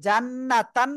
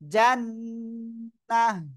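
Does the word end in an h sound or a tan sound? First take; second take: tan sound; h sound. First: The word ends with a full -tan syllable. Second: The word ends with a soft h sound. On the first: The speaker calls it wrong. "জান্নাতান না বলে" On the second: The speaker calls it right. "আমরা বলবো জান্নাহ"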